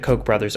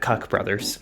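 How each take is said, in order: First: The name is said like 'coke'. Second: The name is said like 'cuck'. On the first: The speaker calls it right. "but these are the Kochs" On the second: The speaker calls it wrong. "I was calling them the Cuck brothers"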